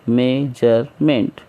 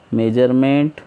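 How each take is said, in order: First: measurement in three slow pieces; teacher counting out the three syllables of measurement. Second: Said in the usual way. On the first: Shown as a demonstration. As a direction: say measurement as मे, जर, मेंट with gaps. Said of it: "इस तरीके से". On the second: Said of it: "syllable कैसा है इसमें?".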